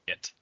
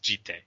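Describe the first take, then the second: First: The word ends abruptly after the t sound. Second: The word ends with a 'teh' syllable. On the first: The speaker calls it wrong. "it's not pronounced Jit" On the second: The speaker calls it right. "It's Jitte"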